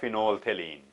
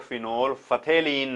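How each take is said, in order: First: No f sound is pronounced before 'thalein'. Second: An f sound is pronounced before 'thalein'. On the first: The speaker calls it right. "ये पीएच जो है ये silent होता है" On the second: The speaker calls it wrong. "इसको फिनोल फथेलीन नहीं बोलना चाहिए"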